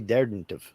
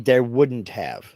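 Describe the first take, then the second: First: 'Would' is squeezed into 'there' as 'there'dn't'. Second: 'Would' is said as a separate full word. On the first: "it sounds weird. It's hard, difficult to say" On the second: "we say there wouldn't have"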